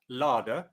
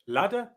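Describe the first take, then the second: First: It has a long ar vowel. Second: It has a short flat a vowel. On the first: "A before double D becomes R" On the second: "standard Southern British English"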